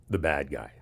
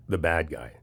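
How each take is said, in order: Both takes have the same delivery.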